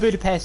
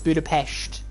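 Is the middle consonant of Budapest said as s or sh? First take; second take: s; sh. First: The middle consonant is a plain s sound. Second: The middle consonant is a sh sound. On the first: The speaker calls it wrong. "It's not Budapest" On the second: The speaker calls it right. "With a sh"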